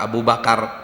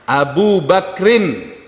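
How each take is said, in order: First: A vowel is said between k and r. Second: The k has no vowel after it. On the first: The speaker calls it wrong. "Ini juga pada nyebutnya Abu Bakar" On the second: The speaker calls it right. "kafnya sukun"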